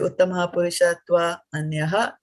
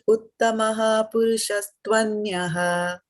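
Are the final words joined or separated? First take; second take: separated; joined. First: The final words are split apart with a break. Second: The final words are joined smoothly together. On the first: The speaker calls it wrong. "the flow stops" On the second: The speaker calls it right. "we combine both of them, both the words"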